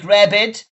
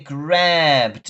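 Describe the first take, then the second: First: The ending is said as an extra syllable. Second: The ending joins the word as one syllable. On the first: The speaker calls it wrong. "we don't say grab it" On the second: The speaker calls it right. "we say grabbed"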